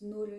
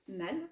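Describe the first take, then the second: First: The name is said with its Danish vowel. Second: The name is said with a French-style vowel.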